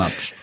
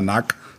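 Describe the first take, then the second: First: The ending is pronounced with a tsch sound. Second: The ending is pronounced with a hard k sound. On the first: This is the new official pronunciation of the name. The speaker calls it right. "sondern Natsch" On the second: This is the old pronunciation of the name. The speaker calls it wrong. "er heißt jetzt nicht mehr Nack"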